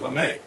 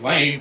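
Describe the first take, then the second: First: It is said with two syllables, ending in ay. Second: It is said like the one-syllable word lame. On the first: This is how it reads with the accent mark. "to Lame" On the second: This is how it reads without the accent mark. "from lame"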